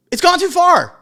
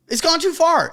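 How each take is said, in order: First: Emphatic outburst. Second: Said in the usual way. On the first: Shown as a demonstration.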